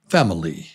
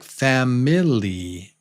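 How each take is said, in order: First: The middle vowel is reduced and barely heard. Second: The middle vowel is clearly pronounced. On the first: The speaker calls it right. "but it's pronounced fam, oli" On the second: The speaker calls it wrong. "so it's, it looks like family"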